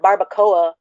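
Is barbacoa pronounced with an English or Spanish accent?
English. The word is said with an English accent. It is said so everyone can understand it. "I'm saying it barbacoa, so everybody can, you know, get it"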